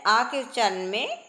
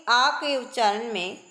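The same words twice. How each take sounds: The two takes are said the same way.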